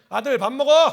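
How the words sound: It is an urgent call to hurry up.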